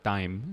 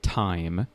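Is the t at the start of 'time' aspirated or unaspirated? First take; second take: unaspirated; aspirated. First: The t is said without a puff of air. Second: The t is said with a puff of air. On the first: The speaker calls it wrong. "don't say uh, time" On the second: The speaker calls it right. "say time. You know, get that air in there"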